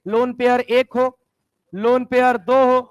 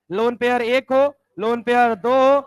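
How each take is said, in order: Both takes have the same delivery.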